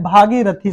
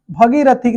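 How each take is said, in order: First: भागीरथी with a long first 'bhaa'; correct pronunciation. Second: भगीरथी with a short first a; wrong pronunciation. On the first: Teacher giving students the right word, long 'bhaa' first. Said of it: "भागीरथी शब्द होता है". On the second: Teacher rejecting the faulty word, mispronounced with short 'bha'. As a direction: clip only the first vowel of भगीरथी to 'bha'. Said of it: "नहीं शब्द होता है". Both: Shown as a demonstration.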